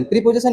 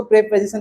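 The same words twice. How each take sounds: First: प्रीपोजिशन with a long ee, the way students get it wrong; wrong vowel. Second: प्रीपोजिशन with a short e at the start, pre-po-zi-shun; correct vowel. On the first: Teacher imitates students mispronouncing प्रीपोजिशन with a long ee. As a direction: say प्रीपोजिशन with the mistaken long ee sound. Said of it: "प्रीपोजिशन नहीं पढ़ा जाता". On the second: Teacher gives students the right way to say प्रीपोजिशन. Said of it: "इसको प्रीपोजिशन पढ़ा जाता है". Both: Shown as a demonstration.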